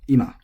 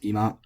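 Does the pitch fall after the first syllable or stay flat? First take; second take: falls; flat. First: The pitch falls from high to low. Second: The pitch stays level without a fall. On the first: "supposed to be accented, high-low" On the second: "I have heard this pronounced ima from some speakers"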